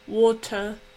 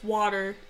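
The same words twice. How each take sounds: First: It is said in a British accent. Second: It is said in an American accent. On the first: "the British one where it's water. That was a really bad British accent" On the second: "U S water"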